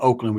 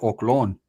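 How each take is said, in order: First: The name is said in its standard form. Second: The name is said in a local slang form. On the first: This is the way outsiders say it. "We didn't call Oakland Oakland" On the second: This is the way locals of that era said it. "We called it Oklon"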